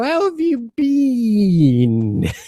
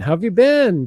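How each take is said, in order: First: The vowel in 'been' is long, like 'bean'. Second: The vowel in 'been' is a short I. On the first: This is the British pronunciation. "they they really hit that bean" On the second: This is the North American pronunciation. "We pronounce it just been"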